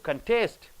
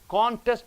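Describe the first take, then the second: First: The stress is on the last syllable. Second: The stress is on the first syllable. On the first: It is used as a verb. "last syllable if you stress" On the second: It is used as a noun. "first syllable if you stress"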